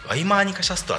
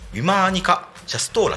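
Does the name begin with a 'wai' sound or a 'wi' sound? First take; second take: wai; wi. First: It begins with 'wai' and ends with short 'stra'. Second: It begins with 'wi' and ends with long 'stoora'. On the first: The speaker calls it wrong. "その発音語は全然違います" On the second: The speaker calls it right. "ウィマーニカシャストーラって言います"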